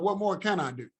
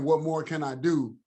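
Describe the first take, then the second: First: It sounds open and sincere, like really asking. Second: It sounds exasperated and resigned, like giving up. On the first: Seeking what else can be done. The speaker calls it right. "just changing the tone" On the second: Nothing more can be done. The speaker calls it wrong. "throwing our hands up and saying"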